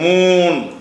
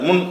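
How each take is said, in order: First: The vowel is held long. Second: The vowel is kept short. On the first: The speaker calls it wrong. "இப்படி சொல்லக்கூடாது" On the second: The speaker calls it right. "முன் என்று சொல்லணும்"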